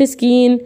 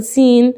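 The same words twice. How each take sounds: First: سكين with a k inserted after the s; mistaken k sound. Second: سين opening with a plain s, no k; correct s sound. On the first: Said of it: "ما بقولش سكين". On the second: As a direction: say سين with the c silent after the s. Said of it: "فأقول سين". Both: Shown as a demonstration.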